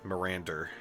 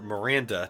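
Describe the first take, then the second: First: It ends with an added r sound. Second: It ends in a plain vowel, no r.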